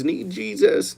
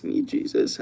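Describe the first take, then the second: First: Said in the usual way. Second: Whispered under the breath; hushed mock-pious whisper; whispered aside. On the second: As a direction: mutter it to yourself, voiceless.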